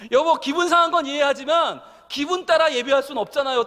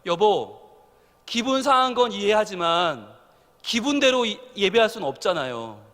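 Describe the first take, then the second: First: Firmer retold wife. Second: Gentle wife. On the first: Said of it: "딱 그러는데요". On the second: Retold or imitated. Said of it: "저희 집사람이 옆에서 그러는 거예요".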